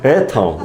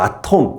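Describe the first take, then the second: First: The first vowel is a front 'ae' sound. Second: The first vowel is an open 'ah' sound.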